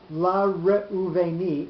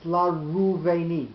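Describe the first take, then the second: First: The aleph's vowel is sounded as a separate syllable. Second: The aleph's vowel is dropped and swallowed up. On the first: The speaker calls it wrong. "it's not la reuveni" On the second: The speaker calls it right. "The aleph completely disappears"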